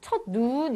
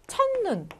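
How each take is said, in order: First: The vowel in 눈 is drawn out long. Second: The vowel in 눈 is short. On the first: The speaker calls it wrong. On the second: The speaker calls it right.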